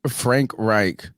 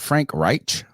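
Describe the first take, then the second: First: The name ends with a plain k sound. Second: The name ends with a breathy ch sound.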